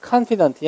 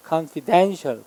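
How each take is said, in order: First: "confident" stressed on "CON"; first-syllable stress. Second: "confidential" with the weight on "den"; stress on DEN. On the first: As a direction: say "confident" as "KAHN-fi-dunt". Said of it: "강세 이름절". ("confident" 첫음절에 강세) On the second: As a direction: say "confidential" as "kahn-fi-DEN-shul". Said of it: "뒤에 than의 강세 있어요". ("confidential"의 '덴'에 강세) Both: Shown as a demonstration.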